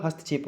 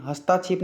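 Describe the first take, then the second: First: हस्तक्षेप with no long "aa"; correct pronunciation. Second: हस्ताक्षेप with long "taa"; wrong pronunciation. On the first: Teacher corrects it for students, careful pronunciation. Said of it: "आ लगाने की जरूरत नहीं". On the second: Teacher shows students the added vowel, mispronounced. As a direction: say हस्ताक्षेप as "has-taa-chhep". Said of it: "हस्ताक्षेप नहीं होगा". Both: Shown as a demonstration.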